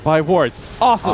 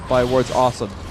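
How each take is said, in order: First: Awesome is set off as its own phrase. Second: Awesome runs on as part of one phrase. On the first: It is advice followed by a separate exclamation. The speaker calls it right. "that was what I meant to say" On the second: Buying wards is described as awesome. The speaker calls it wrong. "my inflection was wrong"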